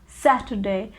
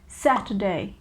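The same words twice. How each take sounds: The two takes are said the same way.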